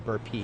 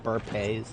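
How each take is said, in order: First: The word ends with an 'ee' vowel sound. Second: The word ends with an 'ay' vowel sound. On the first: "like B U R B U R P E E" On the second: "like B U R P A Y"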